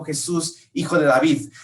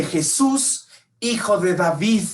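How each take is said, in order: First: Said in the usual way. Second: Crying out. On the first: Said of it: "Te voy a decir qué es lo que en realidad estaba gritando". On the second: Retold or imitated. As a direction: call out to be heard over the crowd. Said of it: "cuando Bartimeo grita".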